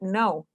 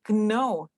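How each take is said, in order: First: The word begins with an N sound. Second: The word begins with a K sound. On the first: The speaker calls it right. "You said know" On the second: The speaker calls it wrong. "You don't say know"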